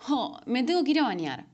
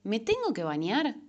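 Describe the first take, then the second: First: A sighing, put-upon grumble about the shower; whiny complaint. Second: "¿me tengo que bañar?" asked with a rising end; reframed as a question. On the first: Showing a complaint as an example, mildly whiny. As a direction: moan about the chore with a falling end. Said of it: "Ya salió la queja". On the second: Showing the reframed question, rising and curious. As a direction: turn the chore into an open question, tune up. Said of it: "Imagínate de preguntarme". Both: Shown as a demonstration.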